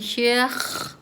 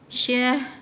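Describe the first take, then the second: First: It ends with a raspy throat kh sound. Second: It ends with a soft breathy h sound. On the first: The speaker calls it wrong. "dia bukan syakh" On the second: The speaker calls it right.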